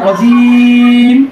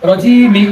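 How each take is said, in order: First: The vowel is long and the word stops on m. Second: The vowel is short and the word ends in -i. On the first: The reciter stops at this word. "আর থামলে রজিম মিমের মধ্যে এসে থেমে যাব" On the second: The reciter continues without stopping. "যদি না থামি যদি কাইনা করি তাহলে এক আলিফ টানতে হবে"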